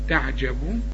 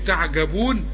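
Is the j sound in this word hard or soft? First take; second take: soft; hard. First: The j sound is soft and hushed. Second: The j sound is hard, not softened. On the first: The speaker calls it right. "كل جيم في القرآن عطشة" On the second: The speaker calls it wrong. "مش تقول لي تعجبون"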